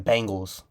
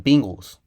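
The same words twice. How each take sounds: First: The first syllable sounds like 'bang'. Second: The first syllable sounds like 'bing'. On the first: The speaker calls it wrong. "not the Bengals" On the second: The speaker calls it right. "It's the Bengals"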